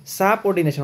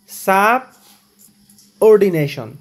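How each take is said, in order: First: Said in the usual way. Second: সাবঅর্ডিনেশন drawn out very slowly, loud, each syllable apart; slow pronunciation demo. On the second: Shown as a demonstration. Teacher slowly sounding out সাবঅর্ডিনেশন for students. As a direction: stretch সাবঅর্ডিনেশন out syllable by syllable, louder. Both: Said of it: "উচ্চারণটা দেখো".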